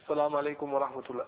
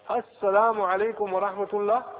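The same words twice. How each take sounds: First: The greeting is slurred and unclear. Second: The greeting is pronounced clearly and fully. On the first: The speaker calls it wrong. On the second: The speaker calls it right.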